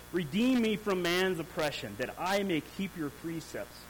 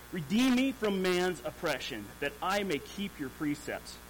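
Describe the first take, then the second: The two takes are said the same way.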